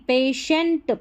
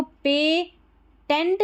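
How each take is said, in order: First: पेशेंट with a sh, "pay-shent"; correct "patient". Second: पेटेंट with a hard t, "pay-tent"; "tent" as second syllable of पेटेंट; wrong "patient". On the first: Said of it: "पेशेंट पढ़ेंगे". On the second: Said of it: "अब इसको पेटेंट नहीं". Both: Shown as a demonstration.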